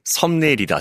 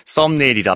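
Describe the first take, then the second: First: "썸네일" with a plain, lax initial s, as 섬네일; spelling pronunciation. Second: "썸네일" with a tense ss at the start; spoken pronunciation. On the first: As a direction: soften the first consonant of "썸네일" to a lax ㅅ. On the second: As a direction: tighten the first consonant of "썸네일" to ㅆ. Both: Shown as a demonstration. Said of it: "썸네일이라 발음하고 있으니".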